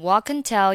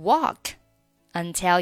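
First: "Walk" runs straight into "until" without a break. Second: "Walk" and "until" are said as separate words. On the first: "walk 和后面的until 连读成walk until" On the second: "有的人呢喜欢单独读walk"

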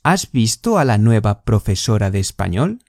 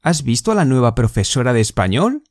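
First: The sentence is spoken more slowly and deliberately. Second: The sentence is spoken at normal conversational speed.

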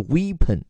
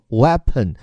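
First: The first vowel is a long 'ee' sound. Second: The first vowel is a short 'e' sound. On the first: The speaker calls it wrong. "不是Weapon" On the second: The speaker calls it right. "这个EA 它发的是A，而不是经常会有的E 这样的一个长音，所以叫做Weapon"

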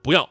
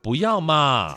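First: It sounds firm and cold. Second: It sounds soft and cutesy.

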